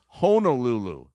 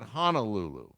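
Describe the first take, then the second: First: The first syllable has an 'oh' vowel. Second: The first syllable has an 'ah' vowel. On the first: The speaker calls it right. "and it's Honolulu" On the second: The speaker calls it wrong. "not Honolulu. Honolulu would be H A N"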